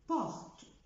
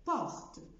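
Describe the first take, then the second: The two takes are said the same way.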